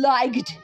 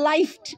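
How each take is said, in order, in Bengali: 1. 'gh' একটি কঠিন g হিসেবে উচ্চারিত হয়। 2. 'gh' একটি f হিসেবে উচ্চারিত হয়। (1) "আমরা লাইকড এরকম বলি না" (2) "আবার লাইফড"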